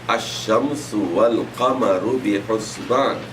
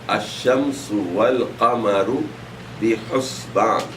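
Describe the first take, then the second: Both takes have the same delivery.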